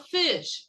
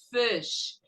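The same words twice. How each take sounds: First: "fish" with a tense ee vowel, "feesh"; learner's "feesh" for "fish"; wrong pronunciation. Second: "fish" with a short, lax i; short-vowel "fish"; correct pronunciation. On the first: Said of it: "Não pode falar fish". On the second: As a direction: say "fish" with the vowel relaxed toward "fesh". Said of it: "É fish". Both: Shown as a demonstration.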